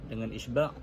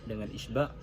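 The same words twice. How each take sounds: The two takes are said the same way.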